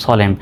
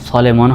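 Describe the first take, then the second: First: সলেম ending on m; silent final n. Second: সলেমন with the final n voiced; mistaken sounded n. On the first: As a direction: drop the n and close on m, সলেম. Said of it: "সঠিক উচ্চারণটা হবে সলেম". (ন নীরব রেখে সলেম) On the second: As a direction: add an extra -mon ending, সলেমন. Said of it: "কিন্তু না, সঠিক উচ্চারণটা হবে". (শেষের ন উচ্চারণ করে সলেমন) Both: Shown as a demonstration.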